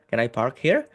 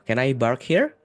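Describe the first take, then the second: First: The word park begins with a P sound. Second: The word park begins with a B sound.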